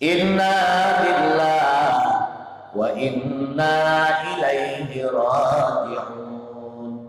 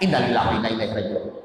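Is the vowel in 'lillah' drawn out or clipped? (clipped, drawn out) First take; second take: drawn out; clipped. First: The vowel in lillah is drawn out long. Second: The vowel in lillah is clipped short. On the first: The speaker calls it right. "harus panjang" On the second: The speaker calls it wrong.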